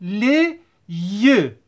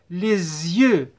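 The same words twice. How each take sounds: First: "Les yeux" as two separate words, lé... yeu; teacher's unlinked "Les yeux"; without liaison. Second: "Les yeux" joined as lé-zyeu; lower, falling "Les yeux" with the linking Z; liaison with Z. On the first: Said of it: "الإكس ما نقروهاش". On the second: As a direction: bridge "Les yeux" with a clear Z. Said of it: "نديروا la liaison". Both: Shown as a demonstration.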